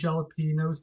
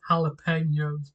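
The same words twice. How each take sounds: First: The middle consonant is a J sound. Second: The middle consonant is an H sound. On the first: The speaker calls it wrong. "I always pronounce it with a J" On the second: The speaker calls it right. "actually pronounced jalapenos"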